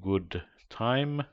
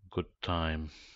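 First: The d at the end of good is pronounced. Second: The d at the end of good is dropped.

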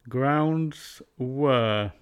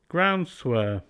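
First: The D sound is kept and words stay separate. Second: The D is dropped and an S links forward.

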